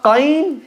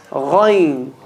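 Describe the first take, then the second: First: Qayn said slowly with a hard k click; clicked mistake. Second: Ghayn low and throaty, no click; correct ghayn. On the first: Teacher contrasting the wrong qayn. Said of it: "So it's not qayn". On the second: Teacher giving the right ghayn after the wrong one. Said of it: "it's ghayn". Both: Shown as a demonstration.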